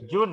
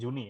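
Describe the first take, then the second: First: The word ends on the n sound. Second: The word ends on an added vowel. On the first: The speaker calls it right. "June ya" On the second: The speaker calls it wrong. "Bukan tadi kamu bilangnya Juni ya"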